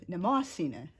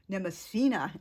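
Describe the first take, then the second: First: The stress falls on the 'mo' syllable. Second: The stress falls away from the 'mo' syllable. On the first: The speaker calls it right. "the stress falls in the O in the Greek word" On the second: The speaker calls it wrong. "instinctively pronounce it with the stress"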